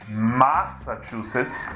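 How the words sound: The first vowel carries a Brazilian Portuguese accent. The speaker calls it wrong. "Não é Massachusetts"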